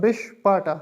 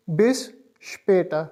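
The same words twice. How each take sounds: First: Später said with a plain a, bis SHPAH-ta; wrong pronunciation without umlaut. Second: Später with the umlaut ä, bis SHPAY-ta; correct umlaut pronunciation. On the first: Teacher shows the version without umlaut dots, plain a. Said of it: "अगर ये दो dots ना होते ... इस तरह pronounce होता है". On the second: Teacher shows the right umlaut sound, careful and clear. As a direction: give später its proper ä sound. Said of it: "इसको अब हम इस तरह प्रोनाउंस करेंगे". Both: Shown as a demonstration.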